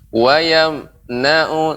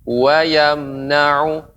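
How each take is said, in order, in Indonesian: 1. Frasa berhenti sebentar di tengah. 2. Frasa mengalir cepat tanpa berhenti. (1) "ada dua tempat yang Ibu berhenti ... seperti mirip saktah" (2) "mengalir, tapi tetap dengan jelas ... cepat"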